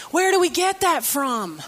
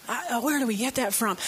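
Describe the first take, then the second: First: Said in the usual way. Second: Softer, quicker repeat to herself; quiet aside. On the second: Real, not acted. Preacher musing to herself before the congregation, softer and quicker. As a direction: mutter it again under the breath, faster.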